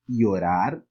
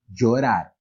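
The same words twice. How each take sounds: First: The ll sounds like a y sound. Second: The ll sounds like the j in jeans. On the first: "ele poderia ter o som de I" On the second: "ele teria o som de um D com J"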